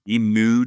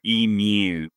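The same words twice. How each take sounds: First: Said in the usual way. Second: Emu drawn out slowly in a put-on Australian accent; slow, hammed-up Australian emu; mock Australian accent. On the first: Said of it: "emu doesn't sound like an Australian accent". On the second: Shown as a demonstration. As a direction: stretch out emu like a proud Aussie. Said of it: "completely authentic Australian accent".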